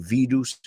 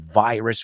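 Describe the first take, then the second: First: The word is said with Spanish pronunciation. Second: The word is said with English pronunciation. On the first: "You say virus" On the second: "we say virus"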